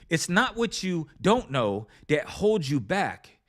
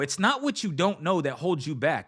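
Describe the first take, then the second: First: It is said more slowly. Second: It is said at a normal pace.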